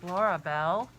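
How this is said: The name is said softly and gently. The speaker calls it right.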